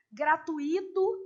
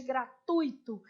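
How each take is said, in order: First: Gratuito with a stressed, separate I, gra-tu-Í-to; common mispronunciation. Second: Gratuito as gra-TUI-to, stress on the U; correct pronunciation. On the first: Teacher quoting a frequent error to students, misstressed. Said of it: "gratuito em vez de gratuito". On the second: Teacher giving students the proper form, correctly stressed. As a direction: glide ui as one syllable in gratuito. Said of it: "em vez de gratuito". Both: Shown as a demonstration.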